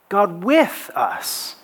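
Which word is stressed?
with. The stress is on with.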